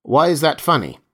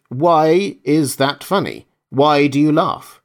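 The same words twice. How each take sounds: First: A sudden, louder, higher challenge; sharp question; sharply. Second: Each word slowed and leaned on, louder; deliberate, spelled-out repetition of Why is that funny; slow repeat. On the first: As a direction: cut in sharp, demanding an answer. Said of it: "Meyerhoff said sharply". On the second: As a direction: repeat it slowly so he can't miss it. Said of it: "I said". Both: A narrator's reading.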